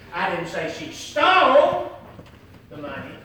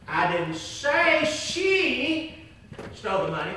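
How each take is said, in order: First: The stress falls on the word stole. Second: The stress falls on the word she. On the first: She did something else with the money. "if she didn't steal the money, what did she do with the money?" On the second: Someone else stole the money. "if she didn't do it, who did it?"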